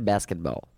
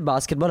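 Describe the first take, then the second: First: It is said in an American accent. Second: It is said in a British accent. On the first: "American say basketball" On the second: "British say basketball"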